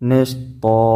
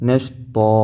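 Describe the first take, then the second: The two takes are said the same way.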